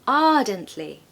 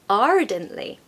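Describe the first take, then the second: First: The R after the first vowel is silent. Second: The R after the first vowel is pronounced. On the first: "in the modern received pronunciation accent, we say ardently" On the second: "If I had a different accent, I would say ardently"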